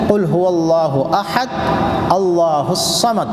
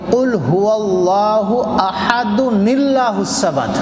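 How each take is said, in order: First: Ahad and allahu are said apart, with a break. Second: Ahad runs into allahu with an added 'nil' sound. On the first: "अगर नहीं मिलाएंगे तो" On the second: "जब मिला देंगे तो"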